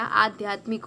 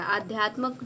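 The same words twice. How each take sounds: First: आध्यात्मिक ending in "mik"; corrected ending. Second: आध्यात्मक ending in "mak"; wrong ending. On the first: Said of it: "आध्यात्मिक होता है". (आध्यात्मिक के अंत में "मिक" बोलें) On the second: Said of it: "आध्यात्मक नहीं होता". (आध्यात्मक के अंत में "मक" बोलें) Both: Shown as a demonstration.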